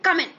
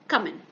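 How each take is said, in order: First: It is said in an annoyed, aggressive tone. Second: It is said in a normal, neutral tone.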